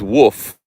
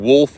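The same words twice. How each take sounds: First: Woof with no L; dialect wolf. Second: Wolf with the L sounded; standard wolf. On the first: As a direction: drop the L, saying woof. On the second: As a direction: keep the L in wolf. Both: Shown as a demonstration. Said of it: "pronouncing wolf as woof".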